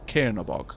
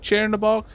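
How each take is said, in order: First: The first consonant is a somewhat hard sound. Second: The first consonant is a soft 'ch' sound. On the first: "hardish would be" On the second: "pronounced with a soft C H"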